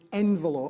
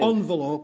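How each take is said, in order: First: The first syllable sounds like 'en'. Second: The first syllable sounds like 'on'. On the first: The speaker calls it right. "It's envelope" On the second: The speaker calls it wrong. "It's not got O on the front"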